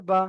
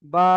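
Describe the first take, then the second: First: Final "বা" kept short; short closing syllable "বা"; no stretch. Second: "বা" held long; "বা" as a sustained, level letter name; one-alif stretch. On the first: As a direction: release "বা" promptly without lengthening. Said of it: "এতে কোনো টান হবে না". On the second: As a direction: draw out the vowel of "বা". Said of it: "এক আলিফ টান রয়েছে". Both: Shown as a demonstration.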